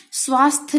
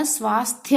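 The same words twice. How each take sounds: First: स्वास्थ्य said "swaasth", no final Y; dropped Y. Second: स्वास्थ्य said "swaasthya", Y clearly added; sounded final Y. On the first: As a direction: cut स्वास्थ्य off at the TH. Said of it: "नहीं होता". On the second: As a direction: finish स्वास्थ्य with an audible "ya". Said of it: "स्वास्थ्य होता है". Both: Shown as a demonstration.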